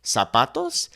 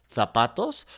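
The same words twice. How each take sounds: First: "zapatos" with a clear S; Latin American accent. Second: "zapatos" with a TH sound, softly; Spanish from Spain; Castilian accent. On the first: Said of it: "we would simply make that S sound". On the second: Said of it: "the kind of the T H sound". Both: Shown as a demonstration.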